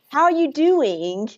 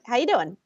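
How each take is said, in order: First: Each word is said fully and separately. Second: The words are squished together and reduced. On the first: The speaker calls it wrong. "nobody says how, like I can't even do it" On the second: The speaker calls it right. "It's like"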